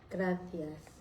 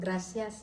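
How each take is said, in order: First: The c is pronounced like a th. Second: The c is pronounced like an s. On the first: This is how Spaniards say it. "Ang C nila, parang T" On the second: This is how locals say it. "S ang pagka-pronounce"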